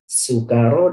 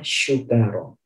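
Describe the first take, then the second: First: The word begins with a plain s sound. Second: The word begins with a sh sound. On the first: The people are drunk. The speaker calls it right. "Sukaro ini menggunakan huruf sin" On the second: The people are grateful. The speaker calls it wrong. "kalau kita membaca sin ini menjadi shin"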